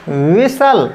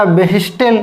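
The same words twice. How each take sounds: First: "विसल" with a silent t; correct pronunciation. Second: "व्हिस्टल" with the t sounded; wrong pronunciation. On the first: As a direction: say "विसल" with no t, the right way. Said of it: "right होता है विसल". ("विसल" सही उच्चारण, t मौन) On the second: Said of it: "तो गलत हो गया". ("व्हिस्टल" गलत उच्चारण, t बोलकर) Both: Shown as a demonstration.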